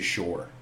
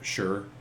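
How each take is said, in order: First: The word is said with an Atlantic Canadian 'shore' vowel. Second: The word is said in a general Canadian way. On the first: This is how people in Atlantic Canada say it. "We say shore" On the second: This is how people outside the region say it. "We don't say shore, sure, sure"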